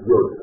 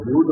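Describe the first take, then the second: First: The word has the older, original Hebrew pronunciation. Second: The word has its common, everyday pronunciation. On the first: The speaker calls it right. "צריך לחזור על עברית המקורית" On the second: The speaker calls it wrong. "לא אומרים יוד רבותיי"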